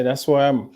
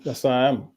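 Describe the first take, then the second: First: "where" leaned on, falling after it; stress on where. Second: "I" stressed, softer and falling. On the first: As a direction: put the weight on "where" in "That's where I am". Repeats location, stress moves. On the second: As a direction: lean on "I" in "That's where I am". Same line repeated, softer. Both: Real, not acted.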